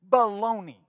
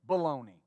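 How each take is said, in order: First: It is said with much more energy. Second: It is said with ordinary energy.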